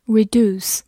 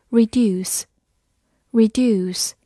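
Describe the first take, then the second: First: "reduce" said the American way, as ri-DOOS; American pronunciation. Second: Said in the usual way. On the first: Shown as a demonstration. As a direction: say "reduce" with a plain oo, no y-glide. (用美式发音读"reduce"，读作ri-DOOS) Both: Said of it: "美式发音".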